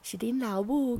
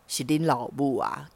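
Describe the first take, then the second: First: The voice is soft and gentle. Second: The voice is low and deep. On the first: "然后他装出温柔的声音说：" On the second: "然后用低沉的声音说话。"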